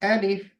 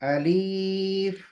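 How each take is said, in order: First: Both vowels are kept short. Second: The second vowel is drawn out long. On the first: The speaker calls it right. "इसका असल नाम है अलिफ" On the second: The speaker calls it wrong. "लाम की आवाज को लंबी कर देते हैं"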